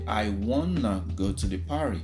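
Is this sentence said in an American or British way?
American. It is said the American way, with want to reduced. "in American English, you say"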